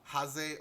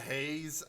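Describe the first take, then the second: First: The surname is said with Japanese-style vowels. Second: The surname is said like the English name Hayes. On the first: The speaker calls it right. "I think it's Hase because she is uh, Japanese" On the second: The speaker calls it wrong. "if you pronounce it in a very English American way"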